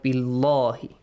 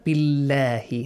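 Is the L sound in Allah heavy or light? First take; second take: heavy; light. First: The L in Allah is heavy and full. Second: The L in Allah is light and thin. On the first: The speaker calls it wrong. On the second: The speaker calls it right. "Pronounce the word Allah with a light sound because there is a kasra"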